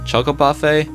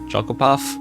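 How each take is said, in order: First: The final E is sounded as an extra syllable. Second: The final E is silent, ending on the F. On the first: "whether you pronounce the E at the end" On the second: "or not"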